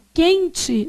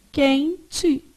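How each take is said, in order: First: Said in the usual way. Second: "Quente" in two parts, quen and te; syllable by syllable. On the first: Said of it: "você fala assim". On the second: Shown as a demonstration. Teacher shows how you say it, syllable by syllable. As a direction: leave a clear gap inside "Quente". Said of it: "você fala assim, ó".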